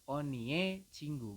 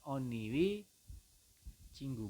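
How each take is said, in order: First: The possessive vowel is said as 'e'. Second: The possessive vowel is said as 'ui'. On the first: The speaker calls it right. "tapi Anda membacanya adalah onie cinggu" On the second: The speaker calls it wrong. "bukan oniwi cinggu"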